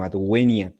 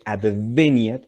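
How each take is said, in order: First: "adveniat" with the v as w, "ad-WE-niat"; "adveniat" classical, v like English w. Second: "adveniat" with the v as b, "ad-BE-niat"; "adveniat" spoken Spanish style with b. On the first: Teacher giving the classical v sound. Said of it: "sino adveniat". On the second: Teacher showing students the wrong v. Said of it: "no se dice adveniat". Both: Shown as a demonstration.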